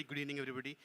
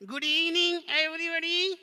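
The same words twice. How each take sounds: First: Said in the usual way. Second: High, loud puppet voice; puppet greeting. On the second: Pretend. Puppet greets audience on prompt.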